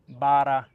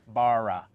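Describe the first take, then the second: First: The r is a quick tongue tap behind teeth. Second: The r is a smooth American-style r sound. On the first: The speaker calls it right. "it's uh, bara" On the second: The speaker calls it wrong. "you don't want it to sound like bara"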